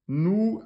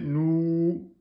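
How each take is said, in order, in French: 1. La voyelle se tient sur un seul temps court. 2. La voyelle se tient sur deux temps pleins. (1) "un temps" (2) "deux temps, ça fait nous"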